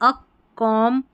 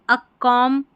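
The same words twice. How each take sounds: Both takes have the same delivery.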